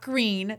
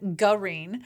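First: The name is said as one syllable. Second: The name is said as two syllables. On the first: The speaker calls it wrong. "not Green" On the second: The speaker calls it right.

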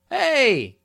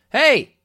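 First: It sounds like a warm, friendly greeting. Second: It sounds like an angry, confrontational challenge.

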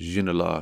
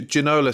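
First: The name is said with a French accent. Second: The name is said with an English accent.

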